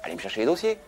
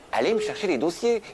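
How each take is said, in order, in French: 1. La demande est dite sur un ton calme et neutre. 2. La demande est dite sur un ton dur et autoritaire. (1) "Moi, je dirais par exemple" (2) "Mais c'est pas comme ça qu'elle le fait. Elle, elle dit"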